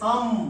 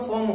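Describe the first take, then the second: First: The vowel is an open 'a' sound. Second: The vowel is a rounded 'o' sound. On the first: The speaker calls it right. "আমার এর উচ্চারণ হয়ে যাবে সাম" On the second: The speaker calls it wrong. "এটা কিন্তু আমার সম হবে না"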